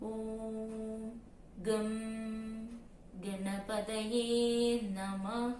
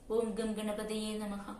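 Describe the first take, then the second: First: The phrase is said slowly. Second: The phrase is said quickly. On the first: "അതല്ലാതെ ... ഇങ്ങനെ" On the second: "എന്ന സ്പീഡിൽ പറയുന്നവരുണ്ട്"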